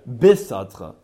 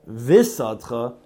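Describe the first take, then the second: First: The word begins with a hard b sound. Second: The word begins with a soft v sound. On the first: The speaker calls it right. "So be is a dogish" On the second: The speaker calls it wrong. "don't say visatcha instead of bisatcha"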